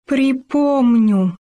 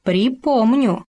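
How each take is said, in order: First: Dreadful word, forced out. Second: Slow, drawn-out «Припомню» with a falling end; menacing threat. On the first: Gopher forcing out the bear's dreadful word to Khoma, slow and strained. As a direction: squeeze out «Припомню» slowly as if it scares you. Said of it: "с трудом вымолвил страшное слово". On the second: Khoma threatening the stubborn gopher, slow and menacing. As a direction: let «Припомню» hang as a slow warning. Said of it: "чуть что сразу пригрозит". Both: A narrator's reading.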